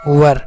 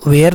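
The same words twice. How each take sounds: First: वर as one syllable, neutral vowel into r; correct "were" pronunciation. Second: वेयर with a long "ay" vowel before the r; mispronounced "were". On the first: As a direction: say वर like "wur", no ee or ay. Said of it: "क्या पढ़ेंगे". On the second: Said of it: "वेयर नहीं पढ़ेंगे". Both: Shown as a demonstration.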